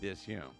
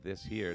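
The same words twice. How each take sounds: First: The sounds are run together and not enunciated. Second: Every sound is clearly enunciated. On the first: The speaker calls it wrong. "they say this here" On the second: The speaker calls it right. "instead of saying this here"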